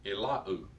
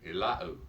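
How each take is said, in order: First: The word ends in an oo vowel. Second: The same.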